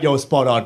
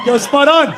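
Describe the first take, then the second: First: Low, understated approval; lightly voiced agreeing Australian, pitched low; approving Australian. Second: High little voice; tiny Australian. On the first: Australian man agrees with the joke, low casual approval. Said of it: "Even he was like". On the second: Acted. Smaller Australian in his stomach agrees, high tiny voice. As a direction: squeak it like a miniature man. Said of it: "smaller Australian in his stomach".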